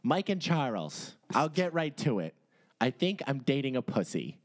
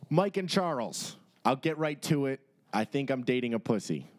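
First: It is read in a put-on girl's voice. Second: It is read in his normal voice.

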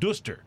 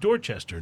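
First: The middle is collapsed into two syllables. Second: All three syllables are fully sounded. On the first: The speaker calls it wrong. "not Duster" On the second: The speaker calls it right. "But they pronounce it Dorchester"

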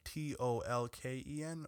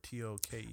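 First: The L sound is pronounced in the name. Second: The L sound is left out of the name. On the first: "Is it Tolkien like Tolken" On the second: "or Token?"

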